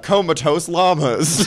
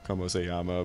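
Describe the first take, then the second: First: It is said like the English words comatose llamas. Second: It is said as the Spanish phrase como se llama. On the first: The speaker calls it wrong. "it looked like comatose llamas, so that's how I said it" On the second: The speaker calls it right. "It's just, hola, como se llama"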